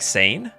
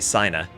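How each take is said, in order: First: It is said with French-style sounds, one syllable. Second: It is said with German-style sounds, two syllables. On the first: The speaker calls it right. "Like Sane?" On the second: The speaker calls it wrong. "the German-speaking part of me wants to say Sina"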